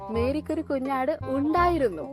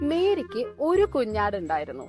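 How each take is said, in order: First: The word ഉണ്ടായിരുന്നു carries the emphasis. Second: The word ഒരു carries the emphasis. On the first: Mary had it once but not anymore. "ഇപ്പൊ ഇല്ല അല്ലെ" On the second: Mary had only one lamb. "Yes"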